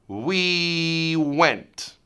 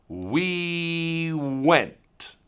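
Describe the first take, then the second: The two takes are said the same way.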